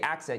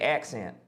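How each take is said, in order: First: It is said in a neutral American accent. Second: It is said in a Southern US accent. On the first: The speaker calls it wrong. "you wouldn't say accent" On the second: The speaker calls it right. "Like if you were doing a Southern accent, you would say accent"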